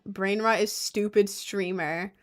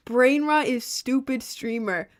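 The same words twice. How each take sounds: First: Said in the usual way. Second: High, slow mocking chat voice; mock the insult in a silly voice. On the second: Shown as a demonstration.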